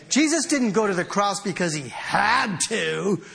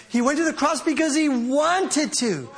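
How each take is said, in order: First: "had" stretched and hit hard; stress on HAD. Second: "wanted" stretched and pitched high; emphatic, lifted "wanted to"; stress on WANTED. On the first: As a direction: lean on "had" to mark obligation, then "to". Preacher contrasts obligation with willingness. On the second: Preacher contrasts willingness with obligation. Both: Shown as a demonstration.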